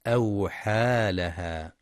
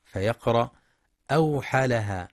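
First: أوحى لها with the long a held a full two beats, slowly; full vowel length. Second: أوحى لها with the alif cut short, rushed; snatch the long a in أوحى; clipped wrong vowel. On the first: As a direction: stretch the alif in أوحى. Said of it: "والصواب إتمام المد الطبيعي بمقدار الألف". (أوحى لها بإتمام المد الطبيعي) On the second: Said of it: "يخطئ من يقرأ أوحى لها باختلاس". (أوحى لها باختلاس الألف) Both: Shown as a demonstration.

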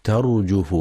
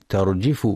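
First: ترجف said tarjuf with u on the jim; the right reading ترجف with damma; correct damma on jim. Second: ترجف said tarjif with i on the jim; the wrong reading ترجف with kasra. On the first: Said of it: "والصواب ضمها". (ترجف بضم الجيم صوابا) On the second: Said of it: "يخطئ من يقرأ ترجف بكسر الجيم". (ترجف بكسر الجيم خطأ) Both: Shown as a demonstration.

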